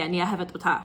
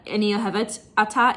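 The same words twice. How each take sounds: First: Lower, run "אוהבת אותה" together with an "o" in "אותה"; corrected Hebrew form. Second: Quick Hebrew phrase ending on "ata"; wrong Hebrew form. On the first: Correcting the singer's Hebrew, the right form with "o-TA". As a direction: say "אותה" as "o-TA", starting on an "oh". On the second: Correcting the singer's Hebrew, the wrong form with "ata". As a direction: say "ata" as a separate word, starting on an open "ah". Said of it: "isn't right". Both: Shown as a demonstration.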